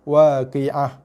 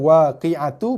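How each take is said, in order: First: The word ends with a soft h sound. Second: The word ends with a 'tu' syllable. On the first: The reader stops on this word. "bila berhenti waqi'ah" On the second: The reading continues without stopping here. "Ni asalnya waqi'atu"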